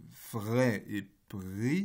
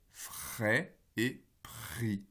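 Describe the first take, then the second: First: Frais et pris slowly with a voiced r; voiced r demo. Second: Frais et pris slowly with a voiceless r; voiceless r demo. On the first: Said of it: "j'essaye de faire un re sonore". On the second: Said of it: "avec un re sourd". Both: Shown as a demonstration.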